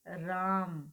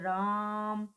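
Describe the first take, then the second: First: The vowel is held at normal long length. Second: The vowel is stretched very long and called loudly. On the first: "समय ज्यादा लग रहा है" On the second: "जोर से बोलते हैं या लंबा बोलते हैं"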